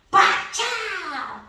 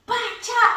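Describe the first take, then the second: First: Comic punch sound. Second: High mock smash noise; mom's own punch sound as she breaks the door; comic punch sound effect. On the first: Shown as a demonstration. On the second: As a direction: make the punch sound like a cartoon. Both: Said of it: "ela fazia os barulhos dela".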